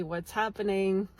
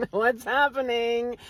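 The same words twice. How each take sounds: First: Said in the usual way. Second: Louder, higher, drawn-out question after a laugh; amused bewilderment. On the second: Retold or imitated. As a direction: stretch it out in mock disbelief. Repeats thought louder after laughing.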